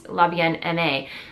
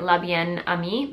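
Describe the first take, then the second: First: The last word sounds like 'em-ay'. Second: The last word sounds like 'ah-mee'. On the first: The speaker calls it right. "but it's Labienne M A, apparently" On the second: The speaker calls it wrong. "I was calling it"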